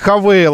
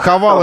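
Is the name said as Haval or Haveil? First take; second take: Haveil; Haval. First: The name is said as Haveil. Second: The name is said as Haval. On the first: The speaker calls it right. "Хавейл они хотят, чтобы мы называли их" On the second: The speaker calls it wrong. "Потому что Хавал — это какой-то глагол"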